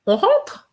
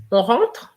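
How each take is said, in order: First: On rentre with the voice jumping up high on rentre; rising question tune. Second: On rentre said as a flat statement, voice settling down at the end; falling statement tune. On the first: Teacher showing on rentre as a question, pitch leaping up. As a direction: ask on rentre, sweeping way up at the end. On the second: Teacher showing on rentre as a statement. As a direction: state on rentre plainly, no lift. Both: Shown as a demonstration.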